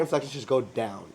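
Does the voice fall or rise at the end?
fall. The voice falls at the end of the phrase. The speaker sounds confident. The speaker calls it right. "all your inflections should go down"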